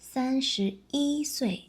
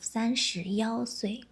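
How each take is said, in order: First: The one is pronounced yi. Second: The one is pronounced yao. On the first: The speaker calls it right. "you can say" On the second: The speaker calls it wrong. "instead of"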